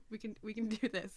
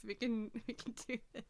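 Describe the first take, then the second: First: Said in the usual way. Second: Real teary pep talk; teary laughter. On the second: Real, not acted. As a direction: voice breaking between laugh and cry. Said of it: "I'm crying again".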